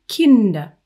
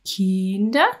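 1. Der i-Vokal ist kurz und abgehackt. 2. Der i-Vokal wird lang gezogen. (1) "sondern Kinder. Das I ist kurz gesprochen" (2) "weil du sagst nicht Kinder"

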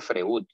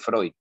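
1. El nombre se dice con pronunciación española. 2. El nombre se dice con pronunciación alemana. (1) "nadie dice Freud" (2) "Todo el mundo dice Freud"

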